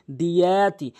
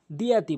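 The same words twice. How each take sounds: First: "দিয়াতি" with the "য়া" held long, louder; elongated ya. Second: "দিয়াতি" with a short middle vowel; no elongation. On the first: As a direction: draw out the middle of "দিয়াতি". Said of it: "এখানে দিয়া টানতে হবে". ("য়া" টেনে "দিয়াতি") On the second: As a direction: say "দিয়াতি" without drawing out the ya. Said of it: "অধিকাংশ লোক টেনে পড়ে না". (না টেনে "দিয়াতি") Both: Shown as a demonstration.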